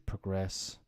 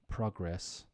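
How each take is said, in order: First: The stress is on the second syllable. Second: The stress is on the first syllable. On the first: It is used as a verb. "to progress" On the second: It is used as a noun. "think of it now as nouns"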